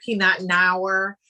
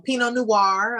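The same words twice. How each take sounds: First: "Pinot Noir" read as spelt, PEE-not NOW-er; mispronounced Pinot Noir. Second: Said in the usual way. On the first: Shown as a demonstration. Guest mimics new wine drinkers, mispronounced Pinot Noir. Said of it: "a lot of people say". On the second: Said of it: "you might pronounce it differently".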